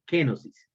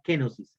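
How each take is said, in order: First: "kenosis" spelled out slowly with a falling close; kenosis said clearly. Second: Said in the usual way. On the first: Shown as a demonstration. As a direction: drill "kenosis" so they memorise it. ("kenosis" pronunciado claro para memorizar) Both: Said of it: "grábesela en su mente".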